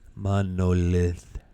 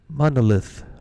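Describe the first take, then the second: First: It is said very slowly. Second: It is said at normal speed.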